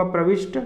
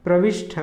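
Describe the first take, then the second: First: प्रविष्ट ending in unaspirated "sht"; no puff on the t of प्रविष्ट; correct प्रविष्ट. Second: प्रविष्ट ending in aspirated "shth"; wrong प्रविष्ट. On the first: Teacher giving correct form, प्रविष्ट as "pravisht". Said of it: "इसका शुद्ध रूप होगा". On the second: Teacher showing the error, प्रविष्ट as "pravishth". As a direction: puff air on the last t of प्रविष्ट. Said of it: "यह अशुद्ध रूप है". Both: Shown as a demonstration.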